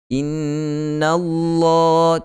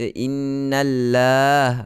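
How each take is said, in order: First: The L in Allah sounds heavy and full. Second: The L in Allah sounds light and thin. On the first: The speaker calls it right. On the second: The speaker calls it wrong. "Jangan baca innallah"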